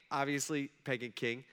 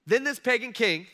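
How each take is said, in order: First: Said in the usual way. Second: "pagan" hit high and loud; stress on pagan. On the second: Shown as a demonstration. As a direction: punch the word "pagan".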